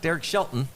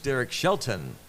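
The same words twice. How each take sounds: First: The middle of the surname is swallowed. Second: Every sound of the surname is clearly enunciated. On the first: This is casual conversational speech. The speaker calls it wrong. "The manager of the Pirates is not" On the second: This is formal on-air presentation. The speaker calls it right.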